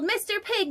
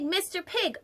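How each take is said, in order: First: Calling out. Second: Softer second call. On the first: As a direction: call out to the pig. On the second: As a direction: repeat the call more gently. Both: Acted. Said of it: "I called".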